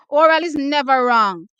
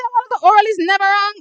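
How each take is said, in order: First: Said in the usual way. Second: Incredulous mock repeat; mocking disbelief. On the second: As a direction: echo the comment back, louder and higher. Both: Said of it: "what you just say?".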